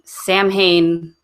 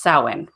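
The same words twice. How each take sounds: First: The middle consonant is an M sound. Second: The middle consonant is a W sound. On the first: The speaker calls it wrong. "We were saying Samhain the entire time" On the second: The speaker calls it right. "it's pronounced Samhain, ... an M and an H together make a W sound"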